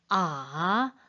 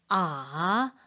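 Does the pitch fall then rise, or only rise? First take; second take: fall then rise; fall then rise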